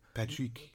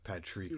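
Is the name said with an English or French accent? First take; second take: French; English. First: The name is said with a French accent. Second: The name is said with an English accent. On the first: The speaker calls it right. "in a French accent" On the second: The speaker calls it wrong. "instead of Patrick like that"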